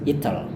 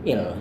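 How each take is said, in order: First: The t is clearly pronounced. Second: The t is left out entirely. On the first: "Atau gaya Inggris" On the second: "Atau bahkan T-nya tidak dilafalkan"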